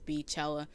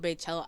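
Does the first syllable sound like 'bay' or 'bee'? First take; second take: bee; bay. First: The first syllable sounds like 'bee'. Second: The first syllable sounds like 'bay'. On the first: The speaker calls it wrong. "I hate pronouncing it as Beachella. It just sounds wrong to me" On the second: The speaker calls it right. "I call it Baychella"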